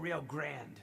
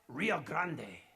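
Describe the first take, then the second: First: Grande is said like English 'grand', no final vowel. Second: Grande is said the Spanish way, with a final vowel. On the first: "We just go Rio Grande. ... American accents like grand" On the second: "I must have offended her with trying to say grande"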